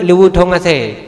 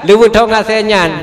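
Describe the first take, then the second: First: "Liwut hong ase" said in Acehnese at normal pace; Acehnese phrase. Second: "Liwut hong ase nyan" slowly, each Acehnese word spelled out; slow Acehnese phrase. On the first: Preacher quotes an old man's Acehnese saying, plainly. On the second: Preacher repeats the Acehnese saying slowly for the audience. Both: Shown as a demonstration. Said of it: "menyoba bahasa Aceh".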